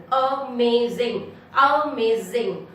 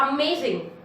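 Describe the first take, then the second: First: Amazing slowly split as a-may-zing; syllable by syllable. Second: Said in the usual way. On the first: Shown as a demonstration. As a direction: break amazing into three slow beats. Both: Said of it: "three syllable".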